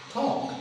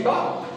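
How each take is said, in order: First: "talk" with a puff of air after the T; aspirated T. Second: "talk" with no puff of air on the T; unaspirated T. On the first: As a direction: say "talk" with an airy burst on the T. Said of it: "So aspiration is all about this". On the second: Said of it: "they don't say talk". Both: Shown as a demonstration.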